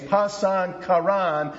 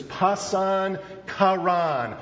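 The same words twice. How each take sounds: First: Pasan karan said slowly in Greek, falling on karan; Greek pronunciation. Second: Pasan karan said slowly in Greek, stressing pasan; Greek pronunciation. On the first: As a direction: repeat pasan karan deliberately, as the Greek term. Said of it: "James takes that little phrase". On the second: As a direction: sound out pasan karan carefully, syllable by syllable. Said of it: "the phrase he used there is". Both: Shown as a demonstration.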